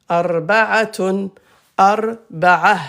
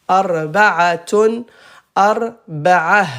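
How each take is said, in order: No difference in how they are said.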